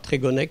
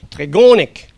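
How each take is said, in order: First: The syllables are said evenly, without word stress. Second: One syllable carries a strong word stress. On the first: The speaker calls it wrong. "c'est pas Trégonec" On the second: The speaker calls it right. "c'est Trégonec"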